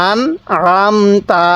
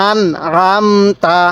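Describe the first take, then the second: Both takes have the same delivery.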